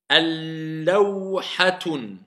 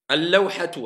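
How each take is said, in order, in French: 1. Le mot finit par un son n ajouté. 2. Le mot finit sur une voyelle u simple. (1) "C'est faux. Si je dis un, c'est nakira, indéfini"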